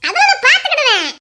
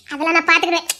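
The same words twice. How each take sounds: First: அதெல்லாம் lifted high at the start, then falling; higher, firmer second take of அதெல்லாம் நான் பாத்துக்கிடுவேன்; emphatic repeat. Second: Said in the usual way. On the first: Acted. Repeats line, second take raised.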